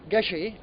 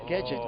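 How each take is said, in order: First: It is said with French pronunciation. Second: It is said with English pronunciation. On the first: "such a French name" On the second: "you tend to pronounce it gadget"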